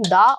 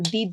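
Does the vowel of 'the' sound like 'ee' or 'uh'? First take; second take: uh; ee. First: The word ends in a short 'uh' vowel. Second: The word ends in a long 'ee' vowel. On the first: The next word starts with a consonant. "अगर आगे का जो word है वो vowel है तो आप उसे प्रोनाउंस करेंगे दी, और अगर कॉन्सोनेंट है तो ... आप द प्रोनाउंस करेंगे" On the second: The next word starts with a vowel. "अगर आगे का जो वर्ड है वो वोवेल है तो आप उसे प्रोनाउंस करेंगे दी"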